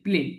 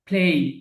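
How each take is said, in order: First: The vowel stays plain with no glide. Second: The vowel ends in a short glide. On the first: The speaker calls it wrong. "প্লে এরকম পড়েছি, কিন্তু উচ্চারণটা কি হবে?" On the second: The speaker calls it right. "উচ্চারণটা কি হবে? প্লেই।"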